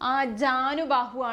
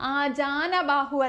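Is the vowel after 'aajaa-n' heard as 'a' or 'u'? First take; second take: u; a. First: The syllable after 'aajaa' is 'nu'. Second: The syllable after 'aajaa' is 'na'. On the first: The speaker calls it right. "ആണ്, നു ആണ് വരുന്നത്" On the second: The speaker calls it wrong. "അല്ല"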